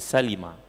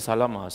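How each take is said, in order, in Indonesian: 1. Vokal setelah 'l' adalah 'i'. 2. Vokal setelah 'l' adalah 'a'. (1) "dia Salimah" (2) "Ada orang kata Salamah, Salamah tu tak tepat"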